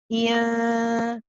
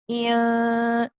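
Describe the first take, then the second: No difference in how they are said.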